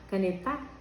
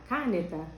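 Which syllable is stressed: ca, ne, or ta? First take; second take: ta; ca. First: The stress is on the last syllable. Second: The stress is on the first syllable. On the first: "O tá" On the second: "o cá"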